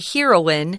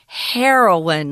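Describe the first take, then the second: First: The first syllable does not sound like 'hair'. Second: The first syllable sounds like 'hair'. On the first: The speaker calls it wrong. "we don't say heroine" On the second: The speaker calls it right. "We say heroine, like hair on your head"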